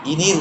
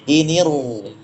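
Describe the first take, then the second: First: The r sound is light and thin. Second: The r sound is heavy and thick. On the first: The speaker calls it wrong. "Jangan kita baca inir tabtum. Tidak boleh" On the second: The speaker calls it right.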